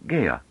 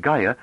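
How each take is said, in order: First: "Gaia" with first vowel shifted towards "gay"; Gaian pronunciation. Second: Said in the usual way. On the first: Shown as a demonstration. Narrator shows her accent, "Gaia" said as "GAY-uh". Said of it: "her vowels tended to round into diphthongs". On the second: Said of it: "and Gaia like Gaia".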